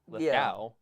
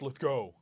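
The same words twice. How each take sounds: First: The last syllable rhymes with cow. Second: The last syllable does not rhyme with cow. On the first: The speaker calls it wrong. "because there's a W, ow, cow, Lithgow, and then I get roasted" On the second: The speaker calls it right. "It's Lithgow"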